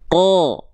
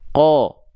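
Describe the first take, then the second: First: The vowel is made with an open, unrounded mouth. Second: The vowel is made with lips pushed forward. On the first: The speaker calls it right. "mulut kita cukup dibuka saja, pangkal lidahnya diangkat" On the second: The speaker calls it wrong. "M, M itu maju mulutnya, monyong mulutnya. Contohnya gini"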